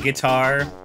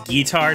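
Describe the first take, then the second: First: The first syllable has a short 'ih' vowel. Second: The first syllable has a long 'ee' vowel. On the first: The speaker calls it wrong. "not Guitar" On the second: The speaker calls it right. "his name is Guitar, It is G E E T A R"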